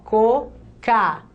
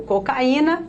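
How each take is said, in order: First: Slow cocaína split into co, ca, í, na; syllable by syllable. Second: Said in the usual way. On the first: Shown as a demonstration. Teacher showing the hiatus to students, syllable by syllable. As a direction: leave a gap after every syllable of cocaína. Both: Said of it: "Ao separar as sílabas".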